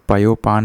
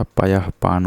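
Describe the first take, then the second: First: पयोपान with "o" joining the two parts; wrong joined form. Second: पयः पान with a breathed "h" before पान; correct visarga form. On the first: Teacher showing the error, पयोपान with an "o" join. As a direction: say पयोपान as "payo-paan". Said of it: "नहीं होता". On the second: Teacher correcting, पयः पान with audible "ah" visarga. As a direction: say पयः पान as "payah paan". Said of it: "होता है". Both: Shown as a demonstration.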